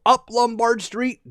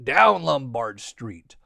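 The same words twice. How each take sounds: First: Higher, slow sing-out going uphill; rising hill climb. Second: Low, slow descending phrase; drawn out, dropping low; sliding downhill. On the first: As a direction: stretch it upward, slowly. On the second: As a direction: let the voice slide down the street. Trolley going down the hill. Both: A narrator's reading.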